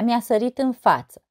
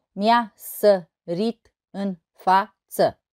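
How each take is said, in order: First: Said in the usual way. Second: Slow, evenly separated syllables. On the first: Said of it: "O altă poezie". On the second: Shown as a demonstration. Teacher showing six syllables in total, syllable by syllable. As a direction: count out each syllable of the verse. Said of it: "deci șase silabe în total".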